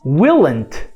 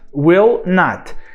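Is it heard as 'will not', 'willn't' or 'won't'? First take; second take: willn't; will not. First: It is contracted keeping the vowel of will. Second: It is said as two full words. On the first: "E se a gente reduzir" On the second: "só acrescentando o not"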